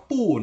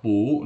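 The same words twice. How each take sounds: First: "pu" with a falling pitch; fourth-tone pu. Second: "pu" with a rising pitch; second-tone pu. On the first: Teacher reads the first example's pu, falling fourth tone. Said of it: "dibaca pu nada keempat". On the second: Teacher reads the second example's pu, rising second tone. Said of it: "dibaca pu nada kedua". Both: Shown as a demonstration.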